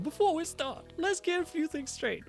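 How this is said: It is read in a put-on character voice. The speaker calls it right.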